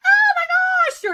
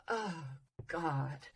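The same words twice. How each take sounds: First: Very high, loud squeal; shrieked excitement demo. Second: Very soft, sinking groan; deflated demo. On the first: Coach demonstrating feeling in the voice, high shrieked exclamation. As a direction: shriek it out, pitch right at the top. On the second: Coach demonstrating feeling in the voice, soft deflated sigh. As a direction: let it drop away, quiet and falling. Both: Shown as a demonstration. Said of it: "they could talk like this".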